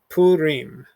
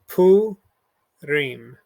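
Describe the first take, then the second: First: It is said with American English pronunciation, as one word. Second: It is said with Hebrew pronunciation, syllable by syllable. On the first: "if you've grown up in an American context ... you probably call this word" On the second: "our keyword has two syllables broken apart here and here"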